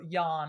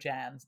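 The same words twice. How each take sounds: First: The name is pronounced the Slovak way. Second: The name is pronounced the English way. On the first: The speaker calls it right. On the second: The speaker calls it wrong.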